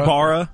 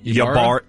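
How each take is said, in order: First: The name begins with an 'ee' sound. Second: The name begins with a 'ya' sound. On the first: The speaker calls it right. "I've heard it Ibarra before" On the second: The speaker calls it wrong. "Is that Yabara?"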